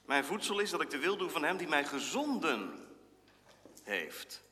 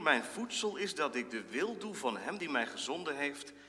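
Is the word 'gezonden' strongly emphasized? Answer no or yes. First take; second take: yes; no. First: The word gezonden carries strong emphasis. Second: The word gezonden carries no special emphasis.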